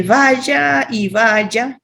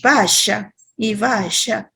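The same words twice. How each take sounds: First: Vaya y vaya said slowly with a plain y sound, baya; y pronunciation. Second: Vaya y vaya said slowly as basha with sh; Argentine-style vaya y vaya with sh sound; sh pronunciation. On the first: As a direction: standard Venezuelan y in vaya y vaya, slow. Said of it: "con Y". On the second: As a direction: Rioplatense sh in vaya y vaya, slow. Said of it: "con el sh". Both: Shown as a demonstration.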